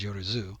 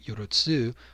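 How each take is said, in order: First: The last syllable starts with a z sound. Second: The last syllable starts with a ts sound. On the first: This is how the word is usually pronounced. "the way that it's usually pronounced is Yorozu" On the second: This is how the word is written in the text. "the text itself is written Yorotsu"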